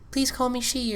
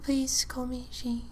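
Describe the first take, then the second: First: It is said louder and more firmly. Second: It is said quietly and timidly. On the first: The speaker was asserting herself. "I would say it louder, more present" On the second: The speaker was hesitant to correct him. "I used to be very quiet and be like"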